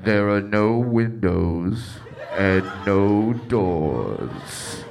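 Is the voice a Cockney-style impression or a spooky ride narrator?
spooky narrator. It uses a spooky theme-park narrator voice. "I didn't know you had an impression of the haunted house ride"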